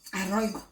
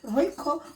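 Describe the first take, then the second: First: The word begins with an added vowel sound. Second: The word begins directly with the r sound. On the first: The speaker calls it wrong. "she could just say Aroigo" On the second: The speaker calls it right. "this is Royco Mchuzi mix"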